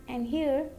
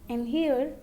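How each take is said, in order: No difference in how they are said.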